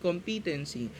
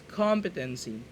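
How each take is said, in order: First: The stress falls on a later syllable. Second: The stress falls on the first syllable. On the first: The speaker calls it wrong. "it's not competency" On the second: The speaker calls it right. "the stress is at the beginning, the first syllable"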